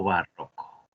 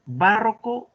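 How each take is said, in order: First: "barroco" as ba-RRO-co; middle-syllable stress. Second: "Barroco" drawn out as BÁ-rro-co; first-syllable stress. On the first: Teacher offers the second choice, "barroco" as ba-RRO-co. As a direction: slowly lean on RRO in "barroco". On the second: Teacher offers the class a choice, "Barroco" slowly as BÁ-rro-co. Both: Shown as a demonstration. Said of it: "Entonces hay que dilucidar".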